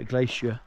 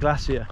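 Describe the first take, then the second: First: It is said in an American accent. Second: It is said in a non-American accent.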